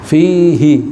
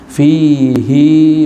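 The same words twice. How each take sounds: First: The final vowel is held short. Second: The final vowel is held long. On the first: "mestinya hi-nya pendek" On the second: "khusus di sini dibacanya panjang"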